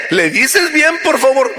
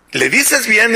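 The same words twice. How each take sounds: First: Higher, insistent "¿Le dices bien"; pleading daughter. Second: A little high, coaxing "¿le dices bien"; pleading daughter. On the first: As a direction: plead harder, pitch rising on "bien". Daughter begs father again. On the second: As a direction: coax gently with "¿le dices bien". Daughter begs father. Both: Retold or imitated.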